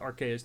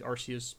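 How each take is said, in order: First: The name begins with a hard 'ark' sound. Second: The name begins with a soft 'ars' sound. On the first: The speaker calls it right. "ik zeg Arceus ... want Archangel" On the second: The speaker calls it wrong. "niet Arceus"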